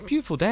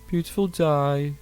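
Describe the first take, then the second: First: It is said in a plain, upbeat voice. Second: It is said in a flat, sad Brummie accent. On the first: The day is lovely. "It looks great" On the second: The speaker seems unhappy about the day. "But instead"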